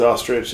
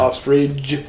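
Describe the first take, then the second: First: The word ends with a 'ch' sound. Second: The word ends with a 'j' sound. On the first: "I think it actually is ostrich" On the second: "we say ostrich. ... we pronounce it O S T R I D G E"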